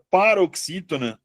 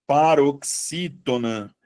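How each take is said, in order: First: Said in the usual way. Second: PAROXÍTONA stretched out slowly; slow dictation. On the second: Shown as a demonstration. Teacher repeating the term for the class, slow dictation.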